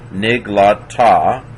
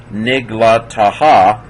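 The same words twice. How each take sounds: First: "Nig, la, ta" ending on an open ah; silent final H. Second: "nig, la, ta, ha" with an added loud "ha"; wrong extra syllable. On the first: Teacher giving the right reading, "ta" as last syllable. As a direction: stop at "ta", with no "ha" after it. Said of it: "there's no vowel after the hey". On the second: Teacher showing students what not to say, "ha" sounded at the end. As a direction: pronounce a separate "ha" after "ta". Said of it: "you don't say". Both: Shown as a demonstration.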